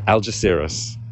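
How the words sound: It is said with a British English accent. "is how the Brits would say it"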